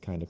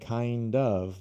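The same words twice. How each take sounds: First: The words blend together into one reduced word. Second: Both words are said fully and separately. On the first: "most native speakers will say" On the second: "instead of saying kind of"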